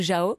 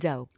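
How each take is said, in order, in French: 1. Le nom se prononce à la française. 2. Le nom se prononce à la malgache. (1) "ça se prononce pour nous Jao" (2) "mais là-bas ça se dit Zao"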